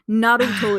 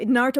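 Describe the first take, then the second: First: The name is said with a Japanese accent. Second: The name is said with an English accent. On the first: "if you want to add the Japanese accent to it" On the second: "the uh, English uh, with the English accent"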